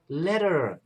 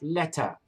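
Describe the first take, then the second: First: It is said in the listeners' local accent. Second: It is said in the speaker's own accent. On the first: The speaker adapts so locals understand. "You end up adjusting and saying, no, I mean letter" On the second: This is how the speaker first said it. "instead of letter"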